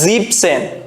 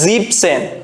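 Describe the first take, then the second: First: The word is said with two syllables, dropping 'en'. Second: The same.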